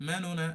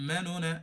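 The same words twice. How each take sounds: No difference in how they are said.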